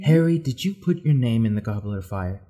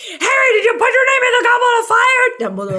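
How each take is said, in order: First: Low, soft, unhurried question; calm. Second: Very high, loud mock shout; hammed-up screamed question; all-caps yelling. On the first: Retold or imitated. Dumbledore asking Harry as written in the book, calm and low. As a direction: imitate a calm, gentle headmaster. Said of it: "It says calmly". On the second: Reading out an all-caps Tumblr post, high mock yell. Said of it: "typed out in all caps".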